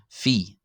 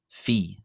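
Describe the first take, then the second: First: The letter name begins with an F sound. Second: The same.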